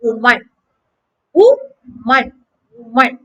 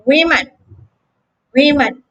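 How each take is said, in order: First: "woman" as WU-man, rounded first vowel; model pronunciation. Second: "women" as WI-min, short I; model pronunciation. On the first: Teacher drilling the singular form. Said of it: "the first is". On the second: Teacher contrasting the plural form. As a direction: drill "women" for the class. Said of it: "the second is". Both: Shown as a demonstration.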